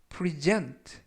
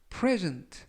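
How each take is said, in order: First: The stress is on the second syllable. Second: The stress is on the first syllable. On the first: It is a verb. "강세를 뒷부분에 있는 알파벳 E의 강세를 두면" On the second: It is a noun meaning a gift. "강세가 앞부분에 있는 알파벳 E의 강세가 있습니다"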